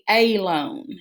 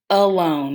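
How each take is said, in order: First: The first vowel is a long a sound. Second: The first vowel is a muffled schwa sound. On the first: The speaker calls it wrong. "when we try it as an open syllable" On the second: The speaker calls it right. "our schwa sound, which is that muffled sound"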